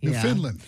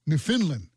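First: The ending sounds like the plain word land. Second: The ending sounds like the country name Finland. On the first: The speaker calls it right. "Can we get it right?" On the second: The speaker calls it wrong. "Finland, as in the country Finland"

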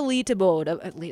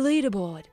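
First: The word is said in a non-English way. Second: The word is said in an English way. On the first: The speaker calls it wrong. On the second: The speaker calls it right.

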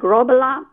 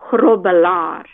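First: The name has soft English-style sounds. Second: The name has harsh guttural and rolled r sounds. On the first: "it's good enough for me" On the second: "it's the Afrikaans way. It's all the grrs and the rrs"

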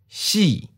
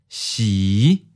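First: The pitch starts high and falls. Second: The pitch starts low and rises. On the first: "High falling. Second tone" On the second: "Low rising. Fifth tone"

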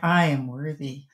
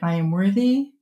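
First: It sounds confident and convinced. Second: It sounds hesitant and unconvinced.

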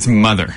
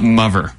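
First: The middle sound is a soft th. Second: The middle sound is an f-like sound. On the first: The speaker calls it right. "It's mother" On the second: The speaker calls it wrong. "not mother"

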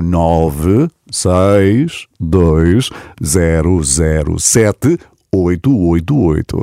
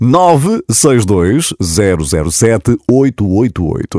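First: The number is read slowly. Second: The number is read at normal speed.

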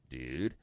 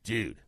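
First: It sounds like a puzzled question. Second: It sounds like a stern reprimand.

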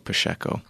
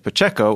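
First: It is said the Brazilian way, with 'sh'. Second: It is said the Mexican way, with 'ch'.

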